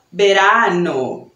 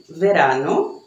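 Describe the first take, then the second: First: Verano said like berano, lips closed for the V. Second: Verano said with a clear V, lower lip on the teeth; verano, the V buzzing as in Portuguese vela. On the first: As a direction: verano with the B sound. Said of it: "falam com som de B". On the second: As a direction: verano with the V sound. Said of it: "com som de V mesmo". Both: Shown as a demonstration.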